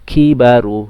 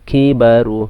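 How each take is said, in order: No difference in how they are said.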